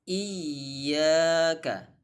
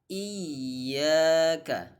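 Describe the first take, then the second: No difference in how they are said.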